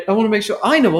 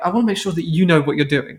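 First: Quick line with "I" picked out; stress on I. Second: Quick line with "you" picked out; stress on YOU. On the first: Retelling the briefcase man, stress on "I". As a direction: lean on "I" in "I know". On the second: Retelling the briefcase man, stress on "you". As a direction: lean on "you" in "you know". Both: Retold or imitated. Contrasting who knows, retold line.

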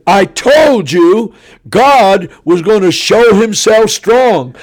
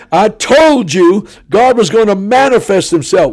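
First: Loud, high, slow proclamation; triumphant preaching. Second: High, loud declaration of vindication; triumphant preaching. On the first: A preacher back on his feet telling the crowd, slow and loud. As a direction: proclaim it like a vindicated prophet. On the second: A preacher repeating his promise to the auditorium, high and triumphant. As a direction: hammer home the claim a second time. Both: Retold or imitated.

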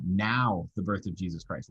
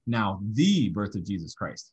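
First: Now hit first, the rest falling; stress on Now. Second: The given weight, as in one single birth; stress on the. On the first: Teacher reading the verse to his class, stressing Now. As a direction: put the weight on the opening Now. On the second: Teacher showing his class one birth, stressing the. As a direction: lean on the little word the. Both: Shown as a demonstration. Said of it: "just by emphasizing different words".

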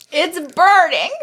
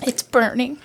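First: Mouth burning from spicy food. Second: Pained from hot sauce; mouth burning from spicy food. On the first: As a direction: let the burn break through. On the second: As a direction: speak through a burning mouth. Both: Real, not acted.

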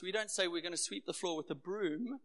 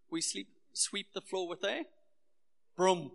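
First: Said in the usual way. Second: Durban "prum" for "broom"; Durban pronunciation. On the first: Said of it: "One of our Durbanisms is, uh, the way we pronounce some words". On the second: Shown as a demonstration. Pastor teasing his own Durban accent, broom said "prum". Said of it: "the way we pronounce some words".

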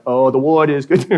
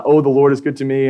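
First: "Lord" said as "Ward", W in place of L; child's Ward for Lord. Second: Said in the usual way. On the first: Retold or imitated. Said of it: "he calls him Ward". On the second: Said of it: "my son, sings this song".

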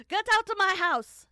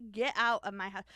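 First: Very loud, high hammed-up shout; mock furious shout. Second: Loud mock order to leave; mock angry yell. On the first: Cook throwing the investigator out, mock furious full shout. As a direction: bellow it as an over-the-top outraged cook. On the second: Cook ordering the investigator out, mock angry yell. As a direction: yell it as an outraged cook, hammed up. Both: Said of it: "that's not what she sounded like".

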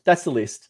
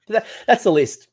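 First: Said in the usual way. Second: Emphatic. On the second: Real, not acted. Emphatic reveal of the list.

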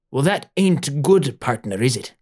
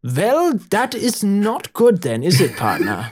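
First: Put-on lightly piratey old doctor; too-piratey accent. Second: High, hammed-up German doctor; slow, deliberate German accent, pitched up high. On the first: Swarthy doctor appraising Mama Leslie, piratey accent. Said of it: "that's too piratey". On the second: German doctor appraising sick Mama Leslie, German accent. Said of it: "The German doctor".

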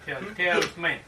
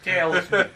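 First: "Tal-, talisman." stammered, with the end swallowed into "esme"; stumbling mispronunciation. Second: "Talisman." said cleanly and loudly as TAL-is-man; the correct "Talisman." with every syllable clear; correct pronunciation. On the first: Retold or imitated. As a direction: trip over "Tal-, talisman." and slur its ending. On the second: Shown as a demonstration. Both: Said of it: "he couldn't say talisman".

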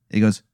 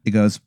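The two takes are said the same way.

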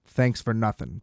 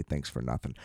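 First: Dry sarcastic thanks at normal level. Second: Dropped low and much softer, a sarcastic aside; muttered sarcasm. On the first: His parting shot to the agent, dry sarcasm. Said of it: "I was like". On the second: Quoting the line he never sent, a low sarcastic mutter. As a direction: mutter the sarcastic line under your breath. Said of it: "I wasn't even mean enough to say". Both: Retold or imitated.

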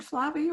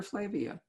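First: Flavia said FLAH-vee-uh; first vowel as AH. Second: Flavia said FLAY-vee-uh; long "ay" in the first syllable of Flavia, rhyming with wavy; first vowel as AY. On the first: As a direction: open "ah" in the first syllable of Flavia. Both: Shown as a demonstration. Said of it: "do you pronounce it".

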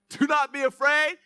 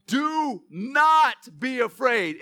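First: "Do not be afraid" with "not" hit high and loud, ending on a rise; stress on not. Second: "Do not be afraid" stretched out slowly, each word weighted; slow emphatic. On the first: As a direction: land hard on "not" and lift the end. Repeated for emphasis. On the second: Repeated slowly. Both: Shown as a demonstration.

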